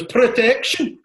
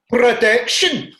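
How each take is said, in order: First: Loud high cry; mock protest shout. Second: Loud, slow, high cry; mock protest shout. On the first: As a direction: bellow it like the kid again. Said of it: "his face when he goes". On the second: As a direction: yell it like a kid hit in the glasses. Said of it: "he's like".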